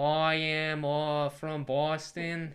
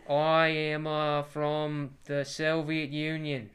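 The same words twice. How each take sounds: First: Hammed-up, slow Boston accent; bad Boston accent impression; JFK. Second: Slow, loud mock-Russian declaration; hammed-up Soviet Russian accent. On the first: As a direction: imitate a Boston politician, loud and drawn out. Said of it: "What does J F K have?". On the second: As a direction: put on a heavy Russian accent, drawn out. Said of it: "I was doing a Russian ac".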